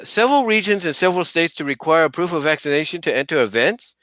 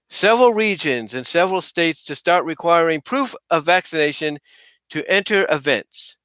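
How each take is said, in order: First: It is read as a question, rising. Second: It is read as a statement, falling.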